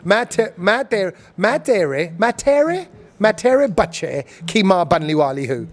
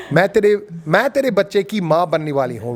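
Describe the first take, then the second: First: Hindi with British vowels, halting "मैं तेरे" repeated before the full line; British Desi accent. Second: Fast, native Hindi with Indian sounds, "मैं तेरे बच्चे की माँ बनने वाली हूँ"; proper Hindi. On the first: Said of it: "over here, they go". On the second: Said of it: "went proper Hindi". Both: Shown as a demonstration.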